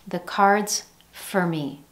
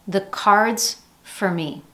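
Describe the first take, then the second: No difference in how they are said.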